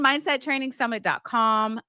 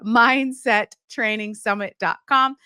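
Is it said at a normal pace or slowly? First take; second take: normal; slowly. First: It is said at a normal pace. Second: It is said slowly.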